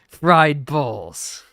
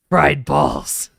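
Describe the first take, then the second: First: It is said in a robotic text-to-speech voice. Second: It is said in a Heisenberg impression.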